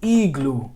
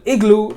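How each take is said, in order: First: The first vowel is a long ee sound. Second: The first vowel is a short ih sound. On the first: "if I were to rewrite this, I would pronounce it as igloo" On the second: "igloo is how we pronounce it in America"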